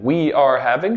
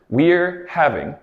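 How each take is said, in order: First: We are is said as two full words. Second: We are is shortened to one contracted syllable. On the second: "that's our contraction"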